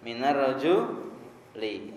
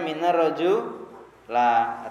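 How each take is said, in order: First: The last word ends in the vowel i. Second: The last word ends in the vowel a. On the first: The speaker calls it right. "Yang betul apa?" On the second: The speaker calls it wrong. "jangan baca minar roju la"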